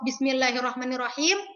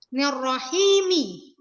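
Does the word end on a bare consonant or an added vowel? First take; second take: bare consonant; added vowel. First: The word ends on a silent final m. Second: The final m is followed by an i vowel. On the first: The reciter stops after this word. "yang tadinya waqaf" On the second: The reciter continues into the next phrase. "Mi-nya dibaca, huruf terakhirnya hidup"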